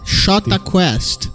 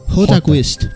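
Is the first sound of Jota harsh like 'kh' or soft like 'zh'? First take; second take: zh; kh. First: The first sound of the band's name is a soft 'zh'. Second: The first sound of the band's name is a harsh 'kh'. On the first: This is how it is said in Brazil. "Agora achei que é o nome da banda" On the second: This is how it is said in Argentina. "nós hablaríamos em Argentina assim"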